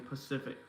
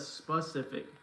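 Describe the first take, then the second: First: The word begins with a p sound. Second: The word begins with an s sound. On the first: The speaker calls it wrong. "I used to always say Pacific" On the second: The speaker calls it right. "instead of specific"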